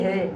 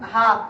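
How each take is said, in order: First: The letter name ends with an 'e' vowel. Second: The letter name ends with an open 'a' vowel. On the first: This is the form read with ya majhul. "আমরা উচ্চারণ করতেছি হে" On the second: This is the original Arabic form ending in alif.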